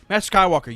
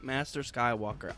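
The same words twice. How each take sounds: First: It sounds frustrated and quick. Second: It sounds merely annoyed.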